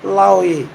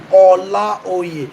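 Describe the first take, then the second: First: "Laoye" shortened, without the opening O, like an English word; "Laoye" in an easy English-style pronunciation; anglicized pronunciation. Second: "Olaoye" in full, with its opening O and Yoruba tones; "Olaoye" pronounced as o-la-o-ye, Yoruba intonation; original Yoruba pronunciation. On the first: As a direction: say "Laoye" anglicized, run together as lao-ye. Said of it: "So I anglicized it". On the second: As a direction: say "Olaoye" the native Yoruba way, every vowel sounded. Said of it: "That's the original pronunciation". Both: Shown as a demonstration.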